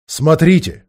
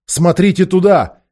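First: Loud alarmed cry; shouting. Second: Higher, slow insistent shout; shouting louder. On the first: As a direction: cry out a warning. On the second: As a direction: point and shout urgently. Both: A narrator's reading. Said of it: "вскричал он".

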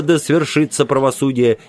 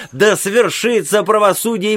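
First: Said in the usual way. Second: High ringing proclamation; high cry. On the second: A narrator's reading. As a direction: proclaim it like a prophet. Old man cries out in court.

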